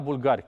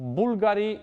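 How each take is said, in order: First: The stress is on the second syllable. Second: The stress is on the first syllable. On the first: It refers to Bulgarian people. "nu e la bulgari" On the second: It refers to the brand name. "e invers accentul"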